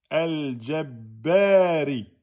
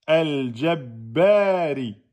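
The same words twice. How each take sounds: No difference in how they are said.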